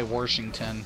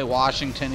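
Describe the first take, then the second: First: "Washington" with an added r, as Warshington; regional R pronunciation. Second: Said in the usual way. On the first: Shown as a demonstration. Ohioan showing how some people say it, "Washington" as Warshington. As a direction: put an r before the sh in "Washington". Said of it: "some people say Washington". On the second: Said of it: "so we say Washington".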